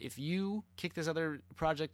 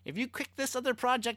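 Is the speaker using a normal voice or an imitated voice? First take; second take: normal; imitated. First: It is said in the speaker's normal voice. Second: It is said in a put-on imitated voice.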